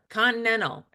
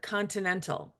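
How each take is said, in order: First: The consonants are run together. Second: The consonants are clearly separated. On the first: "seem to run consonants together" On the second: "instead of"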